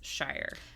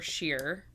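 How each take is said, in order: First: The vowel sounds like 'eye' in 'fire'. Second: The vowel sounds like 'ear' in 'near'. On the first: The word stands on its own. "alone, standing on its own, it's shire" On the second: The word ends a longer place name. "if that's the end of the word, it's pronounced sure or sheer"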